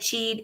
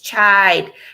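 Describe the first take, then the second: First: The vowel is a long ee sound. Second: The vowel is an eye sound. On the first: The speaker calls it wrong. "I said cheat" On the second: The speaker calls it right. "It's chide"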